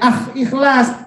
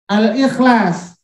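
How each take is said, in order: First: The article is said without its l sound. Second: The article keeps a clear l sound. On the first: The speaker calls it wrong. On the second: The speaker calls it right. "al lamnya harus terucap"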